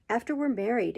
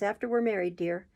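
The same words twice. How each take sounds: First: Higher, startled After we're married!; surprised exclamation. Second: Said in the usual way. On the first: A narrator's reading. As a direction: throw it back in shock. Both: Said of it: "exclaimed Mister Bumble".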